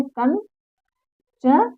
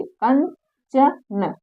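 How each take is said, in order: First: कंचन stretched out extremely slowly, nasal held; nasal demo. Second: कंचन said very slowly, syllable by syllable; teacher drawing out कंचन with the nasal clear; spelling demo. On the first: Teacher models the nasal in कंचन, extremely slowly. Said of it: "तो क्या करते हैं?". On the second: Teacher shows students how कंचन sounds, very slowly. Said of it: "देखिए कंचन". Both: Shown as a demonstration.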